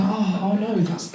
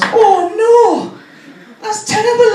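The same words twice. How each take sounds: First: Hushed polite concern, acted; soft sympathy. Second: High, loud Welsh dismay; Welsh accent. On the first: Listeners reacting to uncle's sad news, soft mock sympathy. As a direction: murmur a sympathetic reaction softly. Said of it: "everyone goes". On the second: Retold or imitated. Welsh nurse hearing of a drug problem, aghast Welsh accent. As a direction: wail it in a hammed-up Welsh lilt. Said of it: "she's also from Wales".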